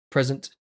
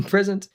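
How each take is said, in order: First: Said in the usual way. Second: Laughing, higher roll-call "Present."; playful high present. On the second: Pretend. Streamer answering roll call, playfully higher. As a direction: say "Present." again, higher, amused.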